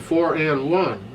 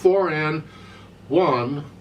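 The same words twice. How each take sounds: First: One follows straight on with no pause. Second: There is a hesitation before one. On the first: The speaker calls it right. "one starts immediately" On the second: The speaker calls it wrong. "It's not four and one, uh-uh"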